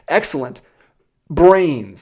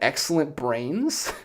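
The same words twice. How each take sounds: First: A clear pause separates the two words. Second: The two words run together without a pause. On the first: Excellent is a reaction, followed by the word brains. The speaker calls it right. "let me enunciate the comma there" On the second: The brains are of excellent quality. The speaker calls it wrong.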